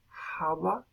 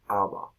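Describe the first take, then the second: First: The word begins with a breathy h sound. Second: The word begins directly with the vowel. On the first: "se hace primero java" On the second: "siglos después, se hace aba"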